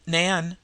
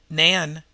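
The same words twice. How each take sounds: First: A sharp call of her name, to wake her. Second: A louder, urgent call of the name; louder repeated call. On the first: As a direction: snap the name out to rouse her. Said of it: "she called sharply". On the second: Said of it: "she repeated". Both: Acted.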